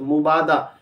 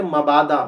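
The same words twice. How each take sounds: First: मुबादा as mu-baa-da, with u; common mispronunciation. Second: मबादा as ma-baa-da, with a; correct pronunciation. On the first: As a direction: say मुबादा with short u after m. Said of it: "मीम पर पेश". (मुबादा, मीम पर पेश के साथ) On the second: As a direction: say मबादा with short a after m. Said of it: "सही तलफ़्फ़ुज़ है". (मबादा, मीम पर ज़बर के साथ) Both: Shown as a demonstration.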